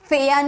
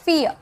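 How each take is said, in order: First: The vowel sounds like 'air'. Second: The vowel sounds like 'ear'. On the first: The speaker calls it wrong. "फेयर नहीं" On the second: The speaker calls it right. "तो इसे हम बोलेंगे फियर"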